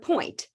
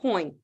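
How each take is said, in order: First: The final t sound is clearly pronounced. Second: The final t sound is left off. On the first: The speaker calls it right. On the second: The speaker calls it wrong.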